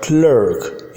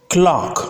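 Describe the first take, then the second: First: "clerk" as "clurk" with r-colored vowel; American pronunciation. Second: Clerk said as "clahk", written "clock"; British pronunciation. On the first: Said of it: "clerk in American English". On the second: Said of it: "in British English". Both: Shown as a demonstration.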